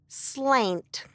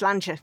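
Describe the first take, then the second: First: The word ends abruptly on a 't' sound. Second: The word ends with a final 'cha' syllable. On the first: The speaker calls it wrong. "it goes, slant. ... you don't say slant" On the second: The speaker calls it right. "It's slantcha"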